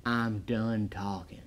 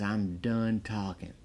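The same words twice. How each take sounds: First: Softer, slower deadpan Stallone impression; cool mellow Stallone. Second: Soft, slow, deadpan and unbothered; cool mellow Stallone. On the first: Reviewer repeats Stallone's line, slow and deadpan. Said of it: "He is cool as a cucumber". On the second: Retold or imitated. Stallone's key line, quoted cool as a cucumber. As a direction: say it like nothing rattles you. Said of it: "He just says it".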